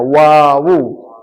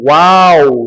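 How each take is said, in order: First: The name is said as two syllables. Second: The name is said as one syllable. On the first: The speaker calls it right. "tapi wawu" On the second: The speaker calls it wrong. "bukan wow"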